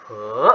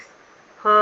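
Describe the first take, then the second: First: "he" rising from a low start; second tone. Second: "he" held high and level; "he" in Mandarin first tone, no glide; first tone, high flat. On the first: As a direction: say "he" in Mandarin second tone, gliding upward. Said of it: "second tone". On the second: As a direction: say "he" on a steady high note. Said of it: "first tone, high flat". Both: Shown as a demonstration.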